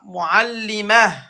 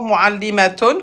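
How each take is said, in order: First: The word ends in a short "-ah" sound. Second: The word ends with a full "-atun" ending. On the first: The word comes at a stop. "quand on s'arrête" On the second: The word is said in running speech. "d'abord muallimatun"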